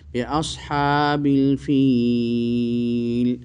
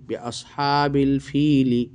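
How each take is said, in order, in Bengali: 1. শেষ শব্দটি একটি ব্যঞ্জনধ্বনি দিয়ে শেষ হয়। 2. শেষ শব্দটি একটি হ্রস্ব স্বরধ্বনি দিয়ে শেষ হয়। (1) "আয়াতের শেষটাকে উচ্চারণ করতে গেলে হরকত বাদ দিয়ে দিতে হবে" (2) "তো বানান করলাম"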